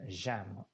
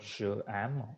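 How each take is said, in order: First: The pronoun merges into the verb as one syllable. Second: The pronoun is said as a separate syllable. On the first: The speaker calls it right. "we'll be saying jam" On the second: The speaker calls it wrong. "instead of je am"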